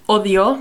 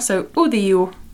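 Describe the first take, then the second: First: The vowels are pronounced as clear O sounds. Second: The vowels are pronounced like U sounds. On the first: "It's similar to Spanish" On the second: "but the O's sound like U's here"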